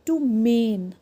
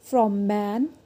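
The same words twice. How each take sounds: First: "mane" with long ay; long vowel. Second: "man" with short a; short vowel. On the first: Teacher drills silent E word, long vowel in "mane". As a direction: draw out the ay in "mane". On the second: Teacher drills word before silent E, short vowel in "man". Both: Shown as a demonstration. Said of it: "वो longer और louder हो जाता है".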